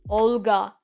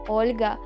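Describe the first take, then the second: First: The L sound is hard, without softening. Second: The L sound is soft, with softening. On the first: The speaker calls it wrong. "It sounds so bad" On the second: The speaker calls it right. "in Russian where it more soft"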